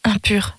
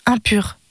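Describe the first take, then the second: First: "Impur" breathed out as a voiceless whisper; whispered cry. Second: Said in the usual way. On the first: Acted. A leper mother warning the stranger away, whispering "Impur". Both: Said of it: "s'écria d'une voix perçante".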